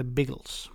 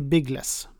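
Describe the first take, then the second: First: Biggles with a reduced ending, "biggels"; correct pronunciation. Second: Biggles said as two words' worth, "bigg-less"; wrong pronunciation. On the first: Dad insisting on the name's proper form, correct pronunciation. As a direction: say Biggles as "BIG-gels", softly landed. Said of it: "poängtera att det heter inte Biggles". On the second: Dad pointing out how it is not said, mispronounced Biggles. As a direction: say Biggles with a clear "less" ending. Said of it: "noga med att poängtera att det heter inte". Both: Retold or imitated.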